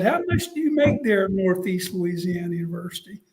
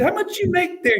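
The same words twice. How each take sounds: First: Said in the usual way. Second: Much higher coach question; Spurrier voice. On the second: Retold or imitated. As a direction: ask it pitched way up. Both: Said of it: "He said".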